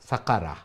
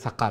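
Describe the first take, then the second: First: The word ends with a final a vowel. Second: The word ends on the r consonant. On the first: "রা জবর রা" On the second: "stop করার কারণে সাকার হয়েছে"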